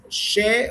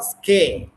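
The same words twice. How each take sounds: First: "she" as the start of British shed-jool; British first syllable. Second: "ske" said skeh, hard SK, drawn out; "ske" as the start of American sked-jool; American first syllable. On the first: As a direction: hold "she" as a slow SHEH. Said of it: "American, she is British". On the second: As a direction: hold "ske" as a slow SKEH. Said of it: "Ske is American". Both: Shown as a demonstration.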